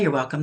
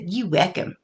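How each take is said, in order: First: It is said in a standard accent. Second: It is said in an Appalachian accent.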